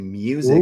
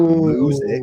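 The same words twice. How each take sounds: First: It is said with a y sound after m. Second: It is said with no y sound after m. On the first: The speaker calls it right. "doesn't have a Y in it either, but we say music" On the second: The speaker calls it wrong. "not music"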